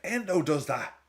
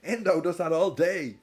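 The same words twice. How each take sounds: First: Endo stressed, said higher and firm; first insistence that Endo does the dirty work; emphatic. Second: Endo punched again, higher and louder; louder repeat insisting Endo does it all day; more emphatic. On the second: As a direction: hammer the point home harder. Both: Retold or imitated. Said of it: "And I was like".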